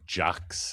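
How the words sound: The name is said the South African way. "unless you're South African, and then it would be"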